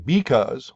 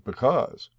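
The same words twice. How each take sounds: First: The stress is on the first syllable. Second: The stress is on the second syllable. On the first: The speaker calls it wrong. "We don't say because" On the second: The speaker calls it right. "we accent the second syllable"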